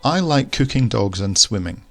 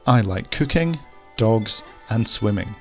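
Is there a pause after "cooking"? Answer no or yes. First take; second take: no; yes. First: Cooking and dogs run together without a pause. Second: There is a clear pause after the word cooking. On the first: Two things are liked, one being cooking dogs. The speaker calls it wrong. "Are we saying that there are two things that we like" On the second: Three separate things are liked. The speaker calls it right. "Let's add the comma"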